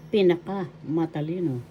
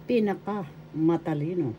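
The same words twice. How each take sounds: The two takes are said the same way.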